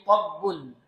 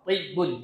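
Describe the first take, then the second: First: The first vowel is an open 'a'. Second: The first vowel is a close 'i'.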